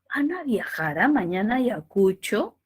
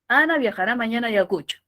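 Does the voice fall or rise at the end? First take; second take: rise; fall. First: The pitch rises at the end of the sentence. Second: The pitch falls at the end of the sentence. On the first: It is a question. "siente cómo hace esa curvita que sube" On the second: It is a firm statement. "Decidido, tono descendente"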